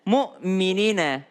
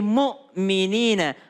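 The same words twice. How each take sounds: The two takes are said the same way.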